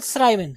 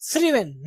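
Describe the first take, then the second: First: Thriven said as THRY-ven; mispronunciation. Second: थ्रीवन as THRI-ven, with an ee-like i; correct pronunciation. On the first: Teacher showing what not to say, thry-ven. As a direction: put an eye sound in thriven. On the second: Teacher giving the verb form, thri-ven. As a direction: say थ्रीवन without any eye sound. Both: Shown as a demonstration. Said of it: "not thriven".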